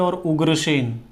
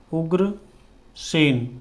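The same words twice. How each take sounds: First: Said in the usual way. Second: Ugrasen drawn out very slowly while writing; slow dictation of Ugrasen; slow spelled-out word. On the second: Shown as a demonstration. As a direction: stretch Ugrasen syllable by syllable. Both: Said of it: "Ugrasen इस तरह से हो जाएगा".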